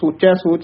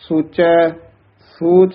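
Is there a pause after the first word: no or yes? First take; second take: no; yes. First: The two words run together without a pause. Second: A short pause follows the first word. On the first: The speaker calls it wrong. "ਸੋਚੈ ਸੋਚ ਨਹੀਂ ਕਹਿਣਾ" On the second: The speaker calls it right. "ਥੋੜਾ ਜਿਹਾ ਠਹਿਰਾ ਯਮਕ ਜੀ ਲਾ ਕੇ ਬੋਲਣਾ ਹੈ"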